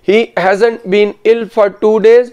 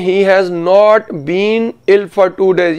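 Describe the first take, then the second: First: "Has" and "not" merge into "hasn't". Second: "Has" and "not" are said as separate words. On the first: This is the conversational style. "Spoken English में क्या होगा, सुनिए" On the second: This is the written style. "Written English में"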